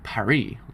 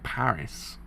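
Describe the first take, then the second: First: It is said with a French pronunciation. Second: It is said with an English pronunciation. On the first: This is how the rest of the world says it. "the rest of the world say Paris, like the French do" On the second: This is how English speakers say it. "In English, they say it's like Paris"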